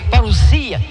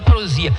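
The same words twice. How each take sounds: First: It has a hissing s sound, like double s. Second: It has a buzzing z sound in the middle. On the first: The speaker calls it right. "a pronúncia correta da palavra grega, ... parousia" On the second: The speaker calls it wrong. "e não parousia"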